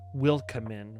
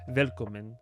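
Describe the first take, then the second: First: The word begins with an English W sound. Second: The word begins with a V sound. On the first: It is read the way an English speaker would. The speaker calls it wrong. "As if you were like an American" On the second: It is said the German way. The speaker calls it right. "I knew before I even tried to pronounce it that it was Velkomen"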